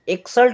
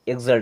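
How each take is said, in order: First: The x is sounded as ks. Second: The x is sounded as gz. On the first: It is acceptable but less professional. The speaker calls it wrong. "एक्सल्ट बोल सकते हैं" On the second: It sounds more professional. The speaker calls it right. "ऐसा feel होता है जैसे हमारी English थोड़ी professional है"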